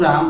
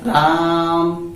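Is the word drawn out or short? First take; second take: short; drawn out. First: The word is said briefly at normal volume. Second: The word is said loudly and held long. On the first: A distant person would not hear it. The speaker calls it wrong. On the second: A distant person hears it. The speaker calls it right.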